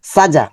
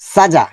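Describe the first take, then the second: No difference in how they are said.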